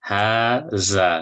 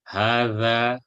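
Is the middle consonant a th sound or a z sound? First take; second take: z sound; th sound. First: The middle consonant is a z sound. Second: The middle consonant is a th sound. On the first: The speaker calls it wrong. "don't say haza" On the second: The speaker calls it right. "that the is equal to the"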